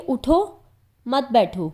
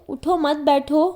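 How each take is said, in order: First: اٹھو with a rising stop, a clear pause, then مت بیٹھو; pause after اٹھو. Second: اٹھو مت بیٹھو run together in one breath; no pause after اٹھو. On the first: Teacher shows students the right pause: اٹھو, stop, مت بیٹھو. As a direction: break cleanly after اٹھو before مت بیٹھو. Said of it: "تو اٹھو پر ٹھہرنا لازم ہے۔". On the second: Teacher shows students the wrong reading, اٹھو مت بیٹھو without a stop. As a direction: glide straight from اٹھو into مت with no break. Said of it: "اگر ٹھہرا نہ جائے تو". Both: Shown as a demonstration.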